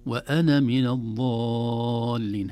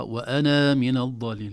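First: Slow chant, وأنا with short na, no alif; correct joined reading. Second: وأنا with the alif stretched in joining; drawing out the na of وأنا as a long vowel; wrong long alif. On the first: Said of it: "أما في الوصل". (حذف الألف وصلا، ترتيل) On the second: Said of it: "لا". (مد الألف خطأ في الوصل) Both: Shown as a demonstration.

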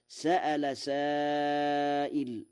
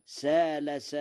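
First: Slow recited "سأل" with a clear glottal stop, sa'ala; تلاوة "سأل" بالهمزة; Hafs reading. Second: "سال" with a long open a and no hamza, like qala; "سال" بلا همز على وزن قال; Warsh reading. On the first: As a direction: recite "سأل" as sa-a-la, hamza sounded. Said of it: "قرأ ورش". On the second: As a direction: recite "سال" as saala, hamza dropped. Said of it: "على وزن قال". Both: Shown as a demonstration.

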